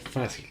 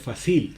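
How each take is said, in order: First: The stress is on the first syllable. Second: The stress is on the last syllable. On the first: The speaker calls it right. "sino dice fácil" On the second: The speaker calls it wrong. "uno no dice fácil"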